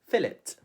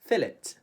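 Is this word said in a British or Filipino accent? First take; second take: British; British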